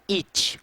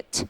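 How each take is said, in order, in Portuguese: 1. A vogal é tensa, com um som claro de "ee". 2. A vogal é curta e frouxa, próxima de e. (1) "não é it ... a galera pronunciando errado" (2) "essa pronúncia é it ... É um som que está mais puxado para o E do que para o próprio I"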